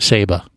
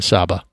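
First: The name is said the way locals say it. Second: The name is said the way outsiders say it. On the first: The speaker calls it right. "That's how the locals say it" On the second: The speaker calls it wrong. "not Saba"

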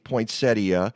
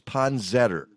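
First: The word ends with an 'ee-uh' sound. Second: The word ends with an 'er' sound. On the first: "Joan, you say poinsettia" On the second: "the proper way of pronouncing it is"

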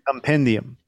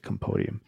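First: The second syllable sounds like 'pen'. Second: The second syllable sounds like 'po'. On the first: The speaker calls it right. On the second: The speaker calls it wrong.

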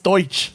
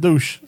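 First: The name is said the German way. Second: The name is said in a non-German way. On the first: This is the proper pronunciation. The speaker calls it right. "It's Deutsch. ... it's German" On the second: This is how the family says it. The speaker calls it wrong. "That's how my parents pronounce it"

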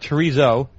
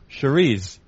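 First: Chorizo is said the general American way. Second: Chorizo is said with a New England accent. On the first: This is the familiar Spanish-style sausage. "not chorizo" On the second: This is a different, Portuguese-style sausage. "I just know how you say it with the New England accent"

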